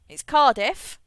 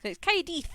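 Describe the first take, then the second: First: Said in the usual way. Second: "Caerdydd" said the Welsh way, ending "-dith"; Welsh pronunciation. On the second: Shown as a demonstration. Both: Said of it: "A double D in the Welsh language is a T H".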